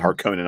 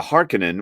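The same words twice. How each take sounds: First: Harkonnen said har-KOH-nen; former pronunciation. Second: Harkonnen said HAR-kuh-nen; Herbert's pronunciation. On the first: Co-host admitting an old habit, Harkonnen as har-KOH-nen. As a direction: put a long stressed O in Harkonnen. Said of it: "I used to pronounce it". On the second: Co-host explaining Herbert's way, Harkonnen as HAR-kuh-nen. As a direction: stress the first syllable of Harkonnen, light middle. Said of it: "that's how Herbert pronounced it". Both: Shown as a demonstration.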